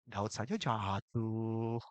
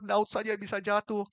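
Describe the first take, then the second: First: It is said in a light, casual way. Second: It is said in a fearful, trembling way. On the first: Even a great person fell, so my falling is excusable. The speaker calls it wrong. "Apalagi gua" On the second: Even a great person fell, so I must be careful. The speaker calls it right. "Aku begitu gentar"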